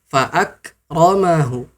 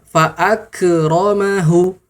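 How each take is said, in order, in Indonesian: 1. K ditahan dengan ringan tanpa pantulan sama sekali. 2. K dilepaskan dengan gema yang memantul. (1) "Maka dia simple saja, santai saja" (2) "Jangan sampai kita mengucapkannya"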